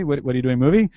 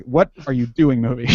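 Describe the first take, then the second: First: "what are you doing, movie?" run together, lifting on "movie"; casual question with a rise on "movie"; questioning emphasis. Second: Mildly irritated demand; demonstrating an annoyed "what are you doing"; kind of pissed. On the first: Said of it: "get the right emphasis". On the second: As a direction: say it a bit pissed, punching the words. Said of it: "you have to say it kind of pissed". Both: Shown as a demonstration.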